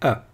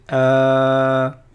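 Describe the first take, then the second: First: The vowel sound is kept short. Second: The vowel sound is held long. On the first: "ça fait A, tout simplement" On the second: "c'était un A prolongé"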